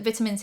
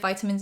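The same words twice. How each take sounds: First: The word is said the British way. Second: The word is said the American way. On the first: "Is it vitamins here" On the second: "vitamins in America?"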